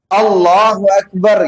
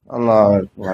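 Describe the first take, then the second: First: An 'u' vowel links 'Allah' to 'Akbar'. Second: No vowel links 'Allah' to 'Akbar'. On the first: The prayer stays valid. The speaker calls it right. "Imam itu harus vokal, suaranya Allahu Akbar gitu" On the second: The prayer becomes invalid. The speaker calls it wrong. "itu aja udah batal sholatnya"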